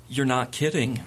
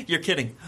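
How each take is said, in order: First: Pause, then drop to an unamused realization; dawning realization. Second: Brief laugh, then a slightly higher line; imitated amused disbelief. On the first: Retold or imitated. Reporter realizing Dean Cain means it, imitated sober realization. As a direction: let the mock amusement fall away. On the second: Reporter reacting to Dean Cain's demand, imitated laughing disbelief. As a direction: lightly act out laughing it off. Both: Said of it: "she laughs and goes".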